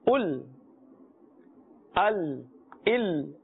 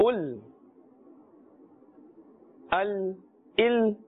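The two takes are said the same way.

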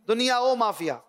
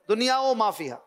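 Both takes have the same delivery.

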